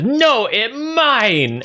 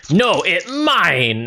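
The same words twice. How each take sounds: First: Very high, slow ogre wail; second greedy ogre. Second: High, slow ogre protest; greedy ogre. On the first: Second ogre fighting for the gold, very high greedy ogre. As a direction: outdo the rival ogre with a higher, drawn-out claim. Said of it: "And then this ogre says". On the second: First ogre grabbing at spilled gold, high greedy ogre voice. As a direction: claim it possessively, stretching the last word high. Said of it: "this ogre says". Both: Acted.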